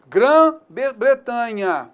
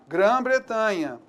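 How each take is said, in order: First: "Grã-Bretanha" stretched very slowly, syllable by syllable; slow spelled-out example. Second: Said in the usual way. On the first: Shown as a demonstration. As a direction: drag out "Grã-Bretanha" for the class. ("Grã-Bretanha" bem arrastado, sílaba por sílaba) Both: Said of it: "o que eu tenho que lembrar?".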